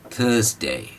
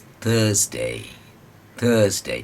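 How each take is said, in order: First: थर्सडे said from the front of the mouth, the mistake; the incorrect थर्सडे; wrong Thursday. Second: The correct English थर्सडे; correct Thursday. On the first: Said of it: "यहाँ से थर्सडे नहीं". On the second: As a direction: pull थर्सडे from inside the mouth, drawn out. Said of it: "अंदर से आएगी आवाज़". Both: Shown as a demonstration.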